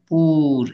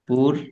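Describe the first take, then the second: First: The vowel is drawn out long. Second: The vowel is kept short. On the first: The speaker calls it wrong. "দীর্ঘ উচ্চারণ পুর এমন না" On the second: The speaker calls it right. "এই একেবারে সহজ সাবলীল উচ্চারণ"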